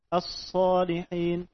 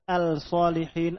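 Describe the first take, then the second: First: The l merges into a doubled s sound. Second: The l is clearly pronounced before the s. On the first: The speaker calls it right. "Menunjukkan lam ini dibaca idgham" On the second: The speaker calls it wrong. "Tidak dibaca al-shalihin"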